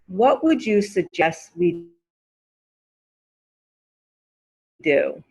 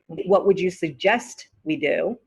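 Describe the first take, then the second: First: The T at the end of suggest is dropped. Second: The T at the end of suggest is pronounced. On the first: It sounds natively American. The speaker calls it right. "you don't hear the T sound" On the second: It sounds less native, more British. The speaker calls it wrong. "It's correct. It just sounds less native"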